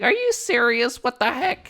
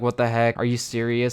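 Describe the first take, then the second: First: It is said in a high childlike voice. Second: It is said in his normal voice.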